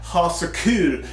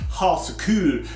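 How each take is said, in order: First: The vowel in kul sounds anglicized and off. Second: The vowel in kul sounds like native Swedish. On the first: The speaker calls it wrong. "I know I'm not saying it right still. I'm trying to get that U" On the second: The speaker calls it right. "no, it's ha så kul"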